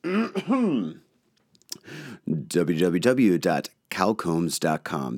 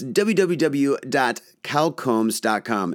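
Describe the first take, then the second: First: It is said in a put-on professional announcer voice. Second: It is said in his casual everyday voice.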